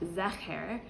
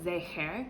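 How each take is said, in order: First: The first vowel is not an 'ay' sound. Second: The first vowel is an 'ay' sound. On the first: The speaker calls it wrong. "a three-dot vowel and would be pronounced zecher" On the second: The speaker calls it right. "It's pronounced A"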